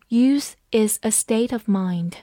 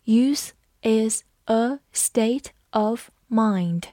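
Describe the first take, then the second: First: Said in the usual way. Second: Slow, every word spaced out; slow model for repeating; slow reading. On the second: Shown as a demonstration. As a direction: read it slowly for the class to repeat. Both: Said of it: "跟着我慢读一遍".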